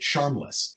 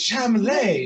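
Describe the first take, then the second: First: The name is said as the English word. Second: The name is said with French sounds. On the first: The name is read as it is spelled. The speaker calls it wrong. "always spelled read it charmless" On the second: The name is meant to sound French. The speaker calls it right. "like with a French pronunciation"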